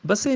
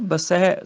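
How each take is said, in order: First: ਬਸੇ ending in close 'e'; wrong close vowel. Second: ਬਸੈ slow, ending in open 'ai'; corrected open vowel. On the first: Teacher warning against ਬਸੇ, said with close 'e'. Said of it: "ਬਸੇ ਨਹੀਂ". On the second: Teacher correcting, ਬਸੈ with long open 'ai'. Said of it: "ਸੱਸੇ ਨੂੰ ਦੁਲਾਵਾਂ ਹੈਗੀਆਂ". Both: Shown as a demonstration.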